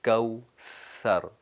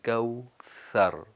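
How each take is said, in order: No difference in how they are said.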